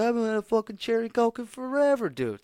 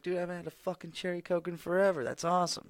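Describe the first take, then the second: First: Much higher and louder, overjoyed outburst; excited shout. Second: Higher-pitched, thrilled nostalgic outburst; excited quote. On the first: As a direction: shout it like you just found treasure. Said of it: "I was like". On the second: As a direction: gush about finding cherry Coke. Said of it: "And I was like". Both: Retold or imitated.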